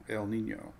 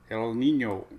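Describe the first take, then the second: First: Said in the usual way. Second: Hammy Spanish accent on El Nino, rolled ny; mock Spanish El Nino. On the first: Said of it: "There's my Spanish accent". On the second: Shown as a demonstration. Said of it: "There's my Spanish accent that I'm not very good at".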